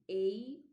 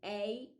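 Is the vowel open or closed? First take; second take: closed; open. First: The vowel of the diphthong is closed. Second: The vowel of the diphthong is open. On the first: "Ditongo fechado" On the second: "Ditongo aberto"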